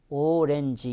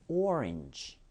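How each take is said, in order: First: It is said in three separate Korean-style syllables. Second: It is said American-style, with the break after 'or'. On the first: The speaker calls it wrong. "오렌지 이렇게 끊어주고 싶어 하지만요" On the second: The speaker calls it right. "O와 R 사이에서 끊깁니다"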